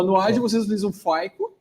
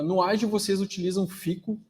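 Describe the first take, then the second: First: Faico said as "FY-koo"; corrected Faico. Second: Fico said as "FEE-koo"; mispronounced Fico. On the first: Host rereading the question after being corrected, Faico as "FY-koo". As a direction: say Faico with an eye sound in the first syllable. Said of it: "ou Faico". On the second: Host reading an audience question, Fico mispronounced as "FEE-koo". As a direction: say Fico with an ee in the first syllable. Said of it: "Eu não falo inglês". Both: Real, not acted.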